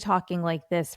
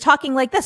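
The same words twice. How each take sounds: First: The voice is slow, soft and calm. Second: The voice is fast, loud and excited. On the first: The body is relaxed. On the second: The body is worked up.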